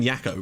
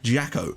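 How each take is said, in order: First: The name begins with a Y sound. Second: The name begins with a J sound. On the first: The speaker calls it wrong. "I've been saying Jacko" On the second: The speaker calls it right. "with a J"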